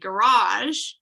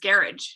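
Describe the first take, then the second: First: It is said in a non-British accent. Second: It is said in a British accent.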